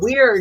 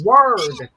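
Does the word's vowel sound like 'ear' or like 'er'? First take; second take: ear; er. First: The vowel sounds like 'ear'. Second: The vowel sounds like 'er'. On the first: The speaker calls it right. "instead of saying weird" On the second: The speaker calls it wrong. "she kept saying it was word"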